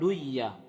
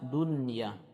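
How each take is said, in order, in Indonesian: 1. Bunyi n dilebur dan tidak terdengar. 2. Bunyi n dibaca dengan jelas dan tegas. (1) "tidak bisa kita mengatakan duya" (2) "nun sukunnya dijelaskan"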